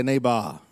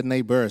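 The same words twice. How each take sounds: First: "neighbor" ending in open "bah", no r; African-accent pronunciation. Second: "neighbor" with a sounded final r; usual r-ending pronunciation. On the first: Preacher teaches congregation his way, "neighbor" as "nay-bah". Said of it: "Say like me". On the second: Preacher shows congregation what to avoid, "neighbor" with r. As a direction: end "neighbor" on an r-coloured "ber". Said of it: "Say like me, don't say neighbor". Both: Shown as a demonstration.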